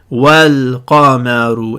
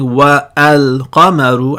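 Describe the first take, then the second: First: Wa runs straight into al with no stop. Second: A glottal stop separates wa from al. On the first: The speaker calls it right. "the hamza is going to become silent" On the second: The speaker calls it wrong. "Instead of saying wa al-qamaru"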